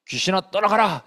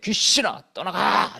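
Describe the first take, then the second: First: It is said plainly, without extra force. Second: It is said forcefully, with strong accent.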